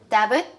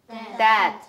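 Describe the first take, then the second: First: A b sound is pronounced in the word. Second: No b sound is pronounced in the word. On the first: The speaker calls it wrong. "No. You gotta be careful of the pronunciation" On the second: The speaker calls it right. "B is silent here"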